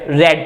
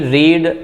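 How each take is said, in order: First: The vowel is short, like 'red'. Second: The vowel is long, like 'reed'. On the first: This is the third form of the verb. The speaker calls it right. "रेड रेड पढ़ा जाता है" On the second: This is the present form of the verb. The speaker calls it wrong. "रीड रीड रीड नहीं"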